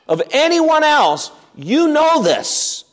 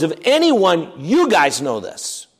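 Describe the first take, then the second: First: "anyone" and "you" pitched much higher, slowed down; emphatic restatement. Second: Said in the usual way. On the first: Shown as a demonstration. Preacher pressing the elders' own knowledge on them, emphatic. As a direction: drive home "Of anyone else, you know this" high and slow.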